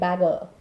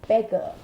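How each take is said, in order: First: The first vowel is an open 'a' sound. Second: The first vowel is a closer 'e' sound. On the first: The speaker calls it wrong. "It shouldn't sound like bagger" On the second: The speaker calls it right. "So don't drop your jaw. It is beggar"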